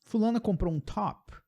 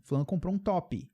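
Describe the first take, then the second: First: "top" ending sharp on p, no vowel after; English top. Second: "top" said as to-pi with an added vowel; Brazilian top. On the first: Teacher shows how nobody says the word. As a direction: stop clean on the p of "top". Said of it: "Ninguém fala assim". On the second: Teacher shows how Brazilians say the word. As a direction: add a short i after "top". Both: Shown as a demonstration.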